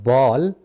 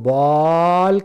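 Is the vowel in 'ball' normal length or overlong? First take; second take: normal; overlong. First: The vowel has its natural, normal length. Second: The vowel is stretched out far too long. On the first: The speaker calls it right. "ये एक अच्छा phonetic experience है" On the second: The speaker calls it wrong. "That is a wrong experience for the child"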